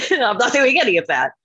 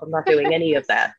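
First: Put-on higher, insistent repeat of a kid's refusal; high-pitched refusal. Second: Said in the usual way. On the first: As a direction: pitch it up in playful defiance. Repeats her childhood refusal, higher.

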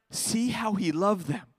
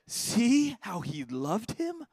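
First: Tender echo. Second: Slow, high, marvelling; awed wonder. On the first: Shown as a demonstration. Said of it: "repeats the verse". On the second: Acted. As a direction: draw out the wonder of it slowly.

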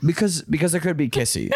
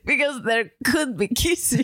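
First: Mock little-kid imitation, amused; childlike. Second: Mock Russian accent; Russian spy. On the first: Mocking partner's kissy line, childlike and laughing. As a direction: tease it back like a child. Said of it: "an adult woman acting like a child". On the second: Replaying the kissy line, hammed-up Russian-spy accent. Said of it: "a Russian spy".

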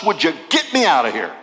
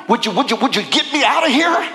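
First: Said in the usual way. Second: Fast, breathless begging; mock pleading. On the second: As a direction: rattle off the pleas like a desperate prisoner. Imagined letter begging from prison.

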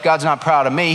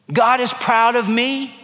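First: Mock doubt, "God's not proud of me" said flatter; doubting objection. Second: Higher, bright declaration of God is proud of me; hopeful claim. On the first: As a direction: brush it off like a skeptic. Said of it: "Oh no, Jeff". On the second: Shown as a demonstration. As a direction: lift "God is proud of me" up high like good news. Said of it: "Oh no, Jeff, God's not proud of me".

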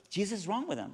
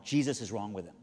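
First: High-pitched puzzled repeat, imitated; bewildered echo. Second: Low, matter-of-fact statement; calm assurance. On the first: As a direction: repeat it up high as the baffled lady. Lady echoes the answer in bewilderment. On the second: Retold or imitated. Wife calmly answers the frantic lady.

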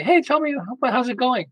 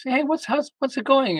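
First: Inviting check-in. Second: Breezy check-in. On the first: Calling daughter, inviting her to talk. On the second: Casual check-in call to daughter. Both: Retold or imitated.

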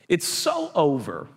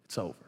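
First: It's over, dragged out long, oh elongated; slow, drawn-out finality. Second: Very soft, falling, almost to nothing; hushed despair. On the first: Preacher to congregation, slowly drawn-out final verdict. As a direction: stretch the over out slowly, heavy fall. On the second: Preacher murmurs the disciples' defeat, barely audible. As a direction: let the words die away in grief. Mourning disciples, hopeless ending. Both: Acted.

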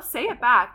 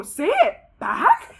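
First: Said in the usual way. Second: Slow, high, stretched disbelieving question; incredulous echo. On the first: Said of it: "And he goes". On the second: Retold or imitated. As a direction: throw his words back at him in disbelief. Echoing his demand in disbelief.

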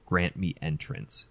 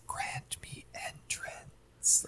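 First: Faint, slow, seductive whisper; sultry whisper. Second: Very soft, slow whispered temptation; sultry whisper. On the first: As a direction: breathe it like a temptress. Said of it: "really faint, really sultry voice". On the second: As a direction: whisper it like a seductress. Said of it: "the way that she says". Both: Retold or imitated.

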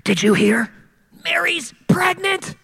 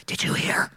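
First: Said in the usual way. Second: Hushed gossiping whisper. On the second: Retold or imitated. Gossiping neighbours whispering about Joseph, whispered. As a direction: lean in and whisper the rumour. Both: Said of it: "people start to whisper".

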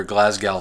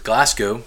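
First: "Glasgow" as said for the town in Scotland; Scottish town's pronunciation. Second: "Glasgow" as Kentucky locals say it; Kentucky pronunciation. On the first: Host contrasting the Scottish namesake with his town, Scottish pronunciation. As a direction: say "Glasgow" the Scottish place's way, not Kentucky's. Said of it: "But we pronounce it Glasgow". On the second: Host showing how his hometown says it, local Kentucky pronunciation. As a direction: say "Glasgow" the Kentucky way, with a plain American sound. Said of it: "we pronounce it Glasgow because we are from Kentucky".

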